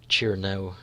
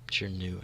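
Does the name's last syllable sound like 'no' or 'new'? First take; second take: no; new. First: The last syllable sounds like 'no'. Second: The last syllable sounds like 'new'.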